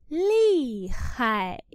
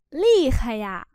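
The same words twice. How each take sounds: First: Lì stressed and khai fading. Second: Said in the usual way. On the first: Shown as a demonstration. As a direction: lean hard on lì so khai fades. (nhấn mạnh chữ lì) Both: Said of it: "Cô nhấn mạnh vào chữ lì".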